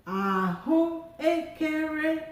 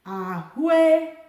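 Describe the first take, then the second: First: Ahụekere drawn out slowly, rising high; teacher demonstrating the tones of ahụekere; slow tone demo. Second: Ahụekere said quickly and loud, ue run together; teacher showing the everyday speech form; spoken fluent form. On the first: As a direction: say ahụekere slowly, marking each tone. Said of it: "Listen to me when I say it". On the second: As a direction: say ahụekere the way you would on the street. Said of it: "I can just say". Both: Shown as a demonstration.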